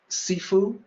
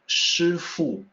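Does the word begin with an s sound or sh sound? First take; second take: s; sh. First: The word begins with a plain s sound. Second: The word begins with an sh sound. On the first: This is the Cantonese-based term used in martial arts. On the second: This is the Mandarin form.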